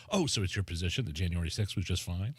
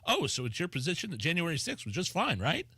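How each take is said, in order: First: Lower, laughing parody of the guest's retort; mock her smug comeback through a laugh; laughing mock impression. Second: Mocking impression. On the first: Co-host mocking the guest's retort, laughing, lower. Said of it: "how does she know what his position is". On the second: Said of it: "Progress C E O doofus going".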